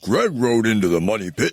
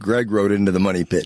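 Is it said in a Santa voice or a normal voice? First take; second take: Santa voice; normal voice. First: It is said in a put-on Santa voice. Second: It is said in his own normal voice.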